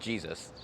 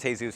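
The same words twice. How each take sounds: First: The name is said with English pronunciation. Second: The name is said with Spanish pronunciation. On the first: This is how such a man never says it. The speaker calls it wrong. "He doesn't ever call himself Jesus" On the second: This is how a man with that name says it. The speaker calls it right. "a guy whose name is Jesus says his name is Jesus"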